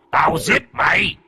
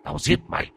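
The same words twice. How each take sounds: First: Threat rising into a high yell; ghostly shout. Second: Hissed death threat, breathless; ghostly whispered threat; menacing whisper. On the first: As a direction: scream the threat at him. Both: Acted.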